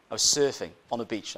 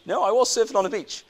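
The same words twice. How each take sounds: First: Said in the usual way. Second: "was" punched high, rebutting a doubter; higher, louder insistence on "was"; insistent stress on WAS. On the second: Acted. Preacher answering doubters about his beach story, insisting on "was".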